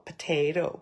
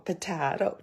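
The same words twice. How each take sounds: First: "potato" with a long AY, puh-TAY-toe; "potato" the TAY way, tossed off; usual pronunciation. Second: "potato" with an open AH, puh-TAH-toe; "potato" the TAH way, tossed off; alternative pronunciation. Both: Shown as a demonstration. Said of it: "the correct pronunciation is".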